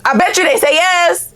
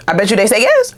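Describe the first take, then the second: First: "I bet you they say yes" sung out much higher; high, playful. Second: Said in the usual way. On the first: Shown as a demonstration. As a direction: tease it up high.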